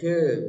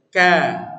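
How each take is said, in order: First: The vowel after k sounds like e. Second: The vowel after k sounds like a. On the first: The speaker calls it wrong. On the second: The speaker calls it right.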